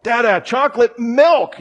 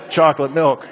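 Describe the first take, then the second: First: Imitated kid's insistent call, much higher pitch; mock-yell it like a toddler losing patience; high, agitated demand, playfully retold; agitated yelling child. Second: Understated mock-serious toddler, no yelling; imitated child's matter-of-fact, businesslike demand; like a lawyer. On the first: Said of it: "he's getting really agitated". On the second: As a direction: state the demand like a tiny lawyer. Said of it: "calls me [name] like a lawyer".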